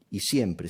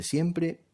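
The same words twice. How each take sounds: First: Said in the usual way. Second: Siempre said much higher, leaning hard on it; emphatic repeat. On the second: Shown as a demonstration. Teacher insisting to students that it always takes an accent, siempre jumps up high. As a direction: hit the repeated siempre high to drive the rule home.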